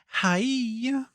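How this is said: It is said in a high voice.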